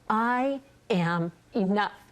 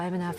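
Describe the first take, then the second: First: It is said firmly, with real conviction. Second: It is said flatly, without conviction.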